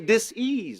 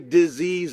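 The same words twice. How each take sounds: First: The word is said as dis plus ease. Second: The word is said blended as one unit. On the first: The speaker calls it right. "You say disorder, you say disrespect, so say disease" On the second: The speaker calls it wrong. "Let's not say disease anymore"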